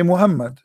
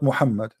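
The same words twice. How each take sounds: First: The name is said with an English pronunciation. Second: The name is said with an Arabic pronunciation. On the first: "Why in English you say Muhammad" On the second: "not Muhammad"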